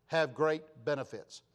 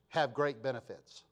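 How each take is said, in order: Both takes have the same delivery.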